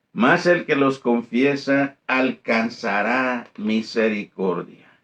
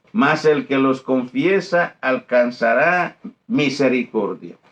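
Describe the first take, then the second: Both takes have the same delivery.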